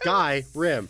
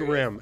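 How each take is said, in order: First: The word is said with two syllables. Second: The word is squeezed into one syllable. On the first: The speaker calls it right. "It's Skyrim" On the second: The speaker calls it wrong. "You just put it together"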